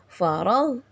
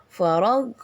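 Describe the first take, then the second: No difference in how they are said.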